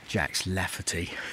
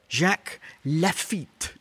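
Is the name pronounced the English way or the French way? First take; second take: English; French. First: The name is pronounced with an English sound. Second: The name is pronounced with a French sound. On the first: The speaker calls it wrong. "Butchering the pronunciation of this one" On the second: The speaker calls it right. "Because it's French"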